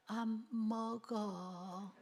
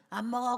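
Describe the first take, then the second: First: A slow, soft, half-hearted no; a hungry child barely refusing, very slowly; a drained, hungry child still says no; weak hungry refusal. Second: Put-on a child's defiant no; a flat, firm refusal; a stubborn child refusing breakfast. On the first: Retold or imitated. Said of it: "그랬던 애가 이제는". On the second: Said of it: "아침에는 ... 그랬던 애가".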